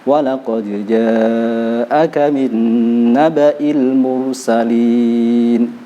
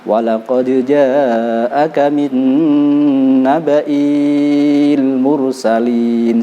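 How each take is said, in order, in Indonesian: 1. Vokal i pada naba'i pendek. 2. Vokal i pada naba'i panjang. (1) "i-nya harus dibaca pendek" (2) "Jangan dibaca ... salah"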